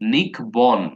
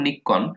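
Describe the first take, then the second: First: The middle consonant is k followed by b. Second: The middle consonant is a doubled k sound. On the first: This follows the spelling to help remember it. "বানানটা মনে রাখার জন্য এভাবে পড়তাম" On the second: This is how the word is actually pronounced. "উচ্চারণটা তো এরকম যে"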